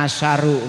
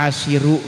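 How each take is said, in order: First: An a vowel comes right after the sh sound. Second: An i vowel comes right after the sh sound. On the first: "dibaca asyaru mangga" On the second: "dibaca asyiru ge mangga"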